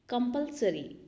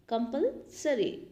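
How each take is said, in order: First: Said in the usual way. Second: Slow. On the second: Shown as a demonstration.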